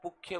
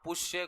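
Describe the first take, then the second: First: The middle consonant is a 'kh' sound. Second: The middle consonant is a 'sh' sound. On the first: This is how it is recited in the Vedas. "पुख्य बोलते हैं। वेदों में शय को ख बोला जाता है।" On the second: This is the ordinary everyday pronunciation. "पुष्य को"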